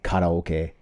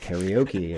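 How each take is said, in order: First: It is said with Japanese pronunciation. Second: It is said with English pronunciation. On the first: "when I'm speaking English don't say karaoke" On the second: "I say like karaoke and karate, like because I'm speaking English"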